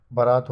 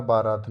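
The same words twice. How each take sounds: First: Short first a in बारात, "ba-RAAT"; correct form. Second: Long first aa in बारात, "BAA-raat"; rejected form. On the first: Teacher giving the right word, short first vowel in बारात. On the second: Teacher rejecting the wrong word, long first vowel in बारात. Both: Shown as a demonstration. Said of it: "बारात नहीं".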